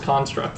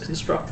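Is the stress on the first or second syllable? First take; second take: first; second. First: The stress is on the first syllable. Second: The stress is on the second syllable. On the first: It is used as a noun. The speaker calls it wrong. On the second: It is used as a verb. The speaker calls it right.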